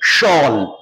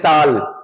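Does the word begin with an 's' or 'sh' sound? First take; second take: sh; s. First: The word begins with a 'sh' sound. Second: The word begins with an 's' sound. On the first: The speaker calls it right. "नहीं, शॉल" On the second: The speaker calls it wrong. "लोग बोलते हैं साल"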